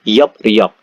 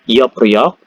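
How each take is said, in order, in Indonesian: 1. Suku katanya tersambung dengan bunyi p lalu r. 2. Suku katanya tersambung dengan bunyi p lalu r.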